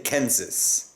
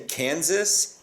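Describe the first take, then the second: First: It is said with a Dutch accent. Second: It is said with a plain American accent. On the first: "they say Kansas" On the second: "don't say Kansas"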